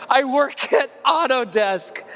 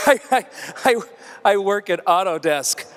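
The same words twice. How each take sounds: First: Mocking imitation. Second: Stammering imitation. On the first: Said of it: "I burned this dude". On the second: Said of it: "say it in that voice".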